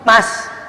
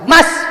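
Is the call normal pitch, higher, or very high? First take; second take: higher; very high. First: It is called somewhat higher in pitch. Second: It is called at a very high pitch.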